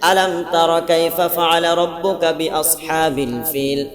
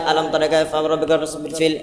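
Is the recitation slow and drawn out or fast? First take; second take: slow; fast. First: It is recited slowly, with drawn-out sounds. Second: It is recited quickly, with rushed sounds.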